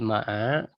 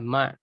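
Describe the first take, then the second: First: The word ends with a vowel after the ain. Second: The word ends on the ain, with no vowel.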